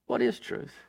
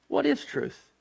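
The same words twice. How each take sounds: First: "What is truth?" repeated in a low, soft whisper; whispered echo. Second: Asked high and sharp, pitch jumping up on "What is truth?"; "What is truth?" thrown up high as a challenge; Pilate's question. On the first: Preacher echoing Pilate's question to the congregation, whispered. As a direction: let "What is truth?" sink into a hush. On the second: Preacher voicing Pilate's scornful question to Jesus, high. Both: Acted. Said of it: "Pilate asked the question".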